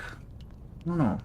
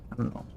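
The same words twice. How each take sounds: First: Slow, higher, softer; drawn-out. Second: Said in the usual way. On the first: Shown as a demonstration. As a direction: stretch it out doubtfully.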